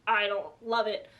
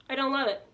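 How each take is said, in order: First: Said in the usual way. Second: "love" lifted and leaned on; stress on love. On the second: Shown as a demonstration. Reviewer repeats her verdict on the book, stressing "love". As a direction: push the word "love" in disapproval.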